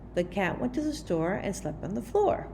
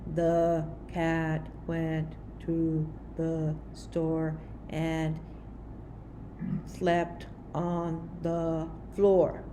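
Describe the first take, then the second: First: It is read with natural, lively expression. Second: It is read in a flat, monotone voice. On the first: The speaker calls it right. "the expression more naturally, like if we're talking" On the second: The speaker calls it wrong. "don't read in a monotone expression"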